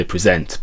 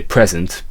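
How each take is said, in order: First: "present" misplaced as pre-ZENT; stress on second syllable. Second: "present" as PREZ-ent, the noun; weight on the start of "present": PREZ-ent; stress on first syllable. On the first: Teacher showing badly matched lyrics, "present" stressed pre-ZENT. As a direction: shift the weight to the end of "present": pre-ZENT. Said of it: "because you've matched it in properly". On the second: Teacher giving the intended word, "present" stressed PREZ-ent. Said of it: "get words sounding a bit weird". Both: Shown as a demonstration.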